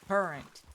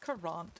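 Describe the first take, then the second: First: The second syllable is reduced, plain American style. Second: The second syllable has a clear, fancy 'a' vowel. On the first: "just American-y" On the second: "it has an A in it. It seems like it should be said fancily"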